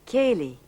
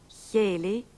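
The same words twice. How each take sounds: First: The first consonant is a plain hard k. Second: The first consonant is aspirated and softened.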